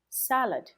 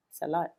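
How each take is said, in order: First: "Salad" as SAL-ud, high first syllable falling away; stress on first syllable. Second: "salad" as suh-LAHD, second syllable stressed; wrong-syllable stress. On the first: Teacher modelling correct word stress for learners, first syllable of "Salad" stressed. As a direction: punch the start of "Salad", reduce the ending. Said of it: "the word salad". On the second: Teacher demonstrating the learner's mistake, second-syllable stress on "salad". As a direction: swallow the first syllable of "salad", land on the last. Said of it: "you're stressing the wrong syllable".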